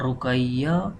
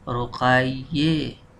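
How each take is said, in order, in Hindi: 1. आख़िरी स्वर खुली 'a' आवाज़ है। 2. आख़िरी स्वर 'e' की तरफ माइल करता है। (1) "जैसे हम नाम पढ़ते हैं" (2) "आखिर में ज़ेर की तरफ माइल करते हैं"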